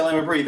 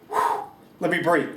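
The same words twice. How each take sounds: First: Said in the usual way. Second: Exhaling relief. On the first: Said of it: "you can stop and say". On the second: Shown as a demonstration. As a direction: breathe out and settle. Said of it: "then you need to say".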